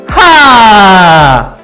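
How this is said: The sound is tight and pushed with force. The speaker calls it wrong. "이거 너무 힘이 들어간 거는 하 이거 뭉쳐진 거"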